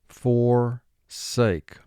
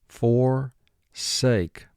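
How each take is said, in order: The two takes are said the same way.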